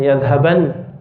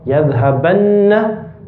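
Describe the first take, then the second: First: "yadhaban" closed on a plain, unheld n; light final n. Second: "Yadhabanna" slowly, with a long nn before the final a; heavy doubled n. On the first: Teacher showing the lighter emphatic noon, "yadhaban" ending on bare n. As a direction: end "yadhaban" on a single n, no vowel after. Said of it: "has a sukoon". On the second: Teacher showing the heavy emphatic noon, "Yadhabanna" with long nn. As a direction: hold the doubled n in "Yadhabanna", then open to a. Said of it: "the very emphasized one has a shadda". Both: Shown as a demonstration.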